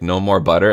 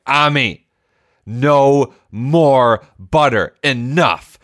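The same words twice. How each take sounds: First: Said in the usual way. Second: Stern, slow, higher and harder, laying down the law; stern scolding. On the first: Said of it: "when I finally said". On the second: Retold or imitated. Dad losing patience with his son over butter, stern slow scolding. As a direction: drag out each word like a fed-up parent. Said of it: "I was monstrous in that moment".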